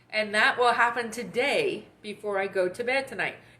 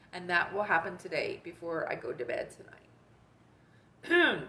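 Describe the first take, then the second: First: The voice stays steady while saying it. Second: The voice cracks while saying it.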